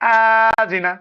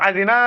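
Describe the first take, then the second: First: The first syllable is drawn out long. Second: The last syllable is drawn out long. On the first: "এটাও ভুল। হামজায় টানলাম প্রথমে।" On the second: "এটাও ভুল হলো, নুনে টানলাম।"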